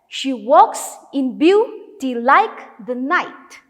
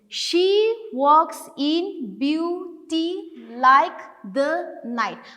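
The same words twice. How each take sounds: First: Every second syllable is stressed, like a heartbeat. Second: The syllables are read evenly, without alternating beats. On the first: The speaker calls it right. "you put more stress on the second sound" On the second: The speaker calls it wrong. "But we will not read like that"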